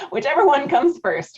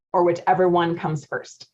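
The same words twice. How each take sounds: First: Amused repeat. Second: Said in the usual way. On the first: Real, not acted. Coach repeating her own joke to webinar viewers, amused and higher. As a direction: relish the punchline a second time, higher.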